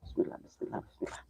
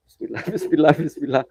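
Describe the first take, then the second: First: Breathy whisper, much softer, almost nothing voiced; whispered prayer. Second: Said in the usual way. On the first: Real, not acted. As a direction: breathe the bismillah under your breath, scared. Praying at a haunted well. (berbisik sangat pelan dengan takut)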